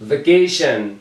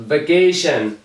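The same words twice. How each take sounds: The two takes are said the same way.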